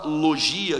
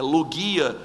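First: The G is soft, like a 'zh' sound. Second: The G is hard, like in 'go'. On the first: This is the usual everyday pronunciation. "A palavra logia" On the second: This follows the original Greek sound. "que é logia"

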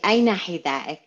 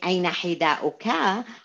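First: The final vowel ending of the last word is dropped. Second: The final vowel ending of the last word is pronounced. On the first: It sounds natural and everyday. The speaker calls it right. "I just drop these and make it very natural way" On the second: It sounds heavy, like formal reading. The speaker calls it wrong. "with all this heavy accents that we use or children read"

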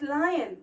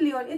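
First: The first vowel sounds like 'eye', as in 'lie-on'. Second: The first vowel sounds like 'ee', as in 'lee-on'. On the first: The speaker calls it right. "it's lion" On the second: The speaker calls it wrong. "it's not leon"

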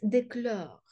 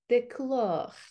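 First: The final vowel sounds like a soft 'è'. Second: The final vowel sounds like a rounded 'o'. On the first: The speaker calls it wrong. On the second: The speaker calls it right.

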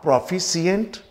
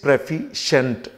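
First: It starts with 'proh' and ends in 'see-ent'. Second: It starts with 'preh' and ends in 'shent'. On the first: The speaker calls it wrong. "this is not" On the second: The speaker calls it right. "this is ... and not सिएंट शेंट"

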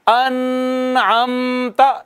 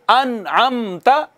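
First: The n sound is nasalized and held. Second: The n sound is touched quickly and released. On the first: The speaker calls it wrong. "यूं नहीं पढ़ना अनअमता, यह गलत है" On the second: The speaker calls it right. "यानी जल्दी से टच करके गुजर जाना है"

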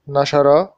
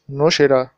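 First: It is said with an 'a' after the first consonant. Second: It is said with 'u' first and 'i' before the last consonant. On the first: Someone published it. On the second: It was published.

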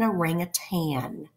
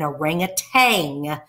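First: The word ends with an n sound. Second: The word ends with a g sound. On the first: The speaker calls it right. "It is actually an orangutan" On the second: The speaker calls it wrong. "A lot of people want to call it an orangutan with a G on the end. It is not"

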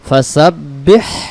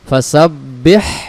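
First: The final h sound is clearly pronounced. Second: The final h sound is clearly pronounced.

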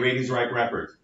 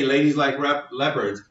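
First: The l sounds blur toward an r sound. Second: The l sounds are clear English l sounds. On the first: A learner without the r-l boundary says it. The speaker calls it wrong. "they'll say ladies like leopards" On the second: A native English speaker says it. The speaker calls it right. "you could say ladies like leopards"

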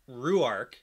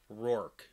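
First: The name is said with two syllables. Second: The name is said with one syllable. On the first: "I pronounce it Ruark in the audiobooks" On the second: "it's pronounced as one syllable"

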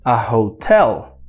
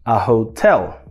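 First: The stress is on the second syllable. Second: The stress is on the second syllable.

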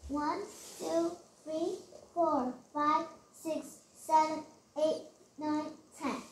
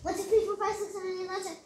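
First: The counting is slow and steady. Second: The counting is fast and rushed.

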